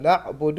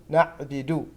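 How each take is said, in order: First: نعبد with damma on باء and دال; correct damma. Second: نعبد said as naʕbidu with kasra on the باء; wrong نعبد. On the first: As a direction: say نعبد with both vowels as damma. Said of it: "بضم الباء والدال". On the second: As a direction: show the mistaken نعبد with kasra. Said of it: "ولا نقول". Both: Shown as a demonstration.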